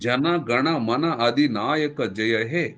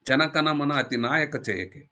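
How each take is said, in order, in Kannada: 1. ಇದು ಸಾಮಾನ್ಯ ಕನ್ನಡ ವ್ಯಂಜನಗಳಲ್ಲಿ ಹೇಳಿದ್ದು. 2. ಇದು ತಮಿಳು ಶೈಲಿಯ ಬದಲಾದ ವ್ಯಂಜನಗಳಲ್ಲಿ ಹೇಳಿದ್ದು.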